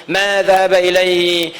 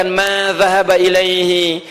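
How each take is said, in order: The two takes are said the same way.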